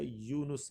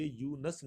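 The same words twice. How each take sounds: First: یونس as yu-nus, with u; correct pronunciation. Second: یونس as yu-nas, with a; wrong pronunciation. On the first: Teacher gives the true name, careful pronunciation. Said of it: "یہ لفظ جو ہے یونس ہے". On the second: Teacher rules out common usage, deliberate mispronunciation. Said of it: "یہ یونس نہیں ہے". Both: Shown as a demonstration.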